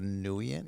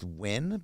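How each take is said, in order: First: The name does not sound like the word win. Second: The name sounds just like the word win. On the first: "if you want to call it Nguyen" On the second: "I believe it's pronounced Win"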